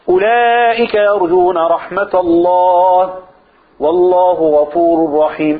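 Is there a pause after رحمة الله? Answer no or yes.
yes. There is a pause after رحمة الله. The closing phrase states a general ruling. "يجوز الوقف"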